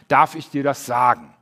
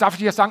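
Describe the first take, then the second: First: It is asked calmly, waiting for an answer. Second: It is asked in a hurried, excited way.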